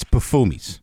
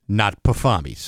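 First: Pufumi's with an oo sound, puh-FOO-meez; correct Pufumi's. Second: Pufami's with an ah sound, puh-FAH-meez; wrong Pufami's. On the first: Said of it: "It's not Pufami's". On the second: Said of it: "The name of the restaurant is Pufumi's". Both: Shown as a demonstration.

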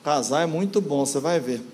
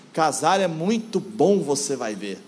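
First: "Casar é muito bom" rattled through without lift; wrong intonation. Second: Measured, well-intoned "muito bom", lifted at the end; correctly intoned. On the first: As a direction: say "você vai ver" as a low, careless throwaway. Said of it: "E não como alguns". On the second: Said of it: "entonar do jeito certinho". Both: Shown as a demonstration.

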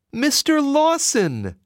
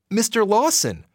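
First: Much higher, slow, anxious cry; mother fearing her son is taken back; cried frantically. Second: Pitched up, cheerful hello; young man greeting a visitor; friendly greeting. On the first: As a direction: call out in panic. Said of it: "she cried frantically". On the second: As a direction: greet him warmly at the door. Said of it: "the man greeted Jessie". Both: Acted.

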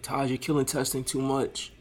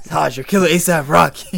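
First: Put-on old drunk voice. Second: Put-on loud, high drunk old man yell. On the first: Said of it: "make somebody sound like, like an old drunk". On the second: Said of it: "what old drunk nigga's about to be yelling".

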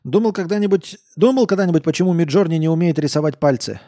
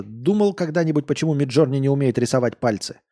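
First: Put-on loud, high drunken question; a tipsy coder pressing hard. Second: Put-on near-plain reread of the drunk line; a calmer, barely drunk retake; lightly voiced drunk. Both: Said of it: "Он пьяно посмотрел".

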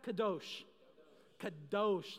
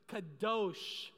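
First: Said in the usual way. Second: Kadosh with a long, firm second syllable; emphatic Kadosh. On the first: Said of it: "You gotta say it". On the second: Shown as a demonstration. Preacher coaching the congregation to say Kadosh, emphatic. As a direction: punch out Kadosh, stretching the DOSH. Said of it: "say it with a little emphasis".

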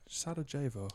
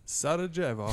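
First: Sarajevo as sa-da-ZHAY-vo, said flatly; first plain try at Sarajevo, sa-da-ZHAY-vo. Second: Sarajevo as sa-da-ZHEV-o, higher; Sarajevo pronounced. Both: Shown as a demonstration. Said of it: "on the pronunciation again".

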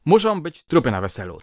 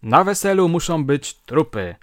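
First: Put-on loud, higher drunken threat; drunk shout. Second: Put-on loud, high drunken yell; retold drunken shout at a wedding. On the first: A narrator's reading. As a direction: yell the threat at the guests. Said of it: "wołał". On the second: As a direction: bellow it like a drunk wedding guest. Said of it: "nagle krzyczy".

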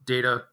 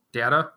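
First: Data said as DAY-tuh; "data" rhyming with "later"; long-A pronunciation. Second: Data tried as DAT-uh, questioning; questioning "data", first syllable like "dat"; short-A pronunciation. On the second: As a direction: say "data" with the vowel of "cat", asking. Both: Real, not acted. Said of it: "Is it data or data?".

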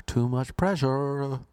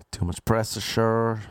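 First: "pressure" said with a clean SH, higher, drawn out; corrected word. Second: "pressure" slowly stumbled, with an extra S syllable; fumbled word. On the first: Comic retries the word after tripping, "pressure" drawn out clearly. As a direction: slowly redo "pressure" with a smooth SH middle. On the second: Comic complains about Paddy's Day, fumbling "pressure". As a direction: trip over "pressure", drawing it out. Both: Real, not acted. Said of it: "Can't even say pressure".

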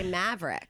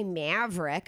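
First: Said in the usual way. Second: "Maverick" with the odd vowel used for "Mav"; wrong pronunciation. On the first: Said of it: "but see, I can say". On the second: Shown as a demonstration. Host shows how they don't say the name, "Maverick" mispronounced. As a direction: say "Maverick" skewed, as the mistaken version. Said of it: "I don't say Maverick".

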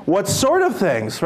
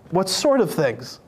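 First: Slow, playing dumb; divine eye roll. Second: Slow, innocent question; playing dumb. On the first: Jesus playing dumb with disciples, slow feigned innocence. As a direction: feign not knowing, slowly. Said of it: "the divine eye roll". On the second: Jesus playing dumb on the road, slow innocent question. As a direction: act like you know nothing. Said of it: "he plays dumb".

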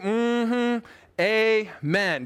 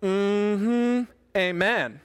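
First: Great big, drawn-out mm-hmm, amen; great big response. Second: Congregational mm-hmm and amen with some attitude; a little attitude. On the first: Pastor urges listeners at home to respond, great big amen. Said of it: "great big". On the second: Pastor shows listeners their response, a little attitude. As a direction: give a small, sassy amen response. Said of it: "With a little attitude". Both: Shown as a demonstration.

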